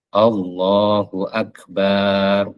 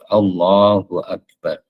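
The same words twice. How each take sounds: First: The vowel after b is drawn out long. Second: The vowel after b is kept short. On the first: The speaker calls it wrong. "contoh yang salah tidak boleh diikuti... berarti memanjangkan ba" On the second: The speaker calls it right. "Harus Allahu Akbar"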